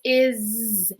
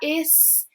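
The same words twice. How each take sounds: First: The word ends with a buzzing z sound. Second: The word ends with a hissing s sound. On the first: The speaker calls it right. "it makes more of a buzzy Z" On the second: The speaker calls it wrong. "I don't hear a S. It's not is"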